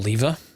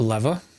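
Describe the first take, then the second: First: It is said with an English pronunciation. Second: It is said with an American pronunciation.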